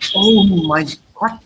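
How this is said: It is said as a strong exclamation. The speaker is strongly moved.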